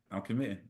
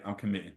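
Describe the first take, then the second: First: Softer and lower, decided; calm low resolve, softer; quiet firm announcement. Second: Low, soft and decided; hushed resolve, lower and softer; quiet firm announcement. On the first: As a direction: repeat it quietly and firmly. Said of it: "And this was Friday night". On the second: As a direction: say it quietly like a big decision. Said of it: "I say". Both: Retold or imitated.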